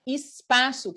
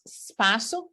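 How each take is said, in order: First: The word begins with a short vowel sound. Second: The word begins directly with an s sound.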